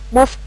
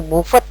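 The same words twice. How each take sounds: First: The ending is only a light final d sound. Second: The ending is read out fully, like a syllable. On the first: The speaker calls it right. "ada penekanan D di belakangnya" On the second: The speaker calls it wrong. "Jangan dibaca utuh moved gitu, salah"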